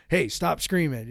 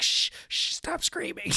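First: Said in the usual way. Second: Urgent high whisper; acted parent's hissed whisper; frantic hushed shushing. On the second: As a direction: shush a screaming kid under your breath. Parent hushing a screaming kid.

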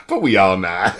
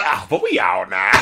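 First: Low sighing delivery. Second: Southern twang. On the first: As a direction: breathe out and sink the line. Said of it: "it's the way he says". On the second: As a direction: lean into a lazy Southern twang. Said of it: "we put this twang on it". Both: Retold or imitated.

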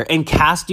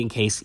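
First: "In cast" said with a hard t at the end, as printed; misread word. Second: "in case" said with a soft s and no t; correct word. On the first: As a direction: read out the typo "In cast" as written. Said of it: "there's a spelling error here". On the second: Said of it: "it's supposed to be in case". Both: Shown as a demonstration.

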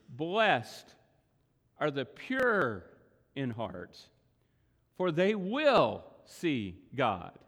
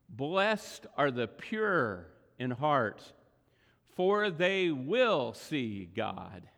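First: Long pauses between phrases, "pure" stressed and drawn out; slow, pausing reading that leans on "pure" and "will"; emphasis on different words. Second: Slow recitation, leaning on "Blessed" with a falling tune; slow reverent reading. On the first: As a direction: break it up slowly: "Blessed", pause, "are the pure", pause, "in heart", pause, then stress "will". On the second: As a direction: read the verse slowly, pressing "Blessed". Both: Shown as a demonstration. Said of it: "put the emphasis on different words".

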